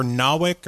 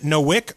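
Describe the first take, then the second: First: "Nowick" said as NAH-wick; open ah in Nowick. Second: "Nowick" said as NO-wick; long o in Nowick. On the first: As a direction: say "Nowick" with first syllable like "nah". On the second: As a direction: say "Nowick" with first syllable like "no". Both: Shown as a demonstration. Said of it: "Is it Nowick or Nowick".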